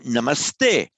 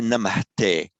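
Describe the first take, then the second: First: An 's' sound comes before the 'te'. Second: An 'h' sound comes before the 'te'. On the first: The speaker calls it right. "We say namaste" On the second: The speaker calls it wrong. "we don't say"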